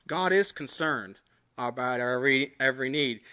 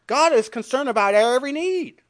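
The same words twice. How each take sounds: First: A hushed, lowered repeat of "God is concerned about our every need"; soft reflective echo. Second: Raised and ringing, GOD stressed high; emphatic proclamation. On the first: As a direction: lower and softer, almost to himself. Quiet repeat of same line. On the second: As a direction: declare "God" like a trumpet call. Preacher proclaims, then repeats softly. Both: Acted.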